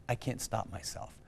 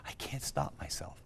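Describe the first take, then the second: First: Softer voiced repeat, resigned; a quiet, defeated echo; quiet despair. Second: Hushed, breathy whisper of a broken man; tearful whisper, barely voiced; whispered despair. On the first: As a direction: say it again quietly, giving up. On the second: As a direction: whisper it like you're at the end of your rope. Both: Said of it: "And in tears on the phone".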